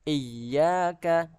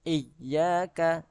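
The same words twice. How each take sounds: No difference in how they are said.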